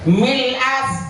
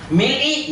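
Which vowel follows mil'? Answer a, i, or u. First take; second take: a; i. First: The word ends with an a vowel. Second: The word ends with an i vowel. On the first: The speaker calls it right. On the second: The speaker calls it wrong. "nggak bisa"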